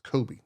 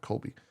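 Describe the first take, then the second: First: The name is said without an L sound. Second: The name is said with an L sound. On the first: The speaker calls it right. "it's Kobe" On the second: The speaker calls it wrong. "not Colby"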